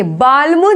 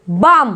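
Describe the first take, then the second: First: बाल्म with l before m; wrong sounded l. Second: बाम as baam, no l; silent l. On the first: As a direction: misread बाल्म as baal-mu. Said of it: "नहीं बोलेंगे". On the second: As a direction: say बाम straight from aa to m. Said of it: "बोलेंगे, बाल्म नहीं बोलेंगे". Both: Shown as a demonstration.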